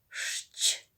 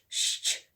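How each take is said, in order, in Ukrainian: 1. Звуки вимовляються повільно. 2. Звуки вимовляються швидко. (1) "промовляли спочатку повільно" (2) "І потім швидко ми починаємо"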